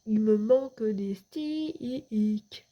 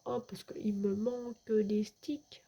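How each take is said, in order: First: Very slow, drawn-out meme line; meme delivery. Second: Said in the usual way. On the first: Shown as a demonstration. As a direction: stretch it out like a meme catchphrase. (réplique de mème traînée, très lente) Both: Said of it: "C'était mon petit mème".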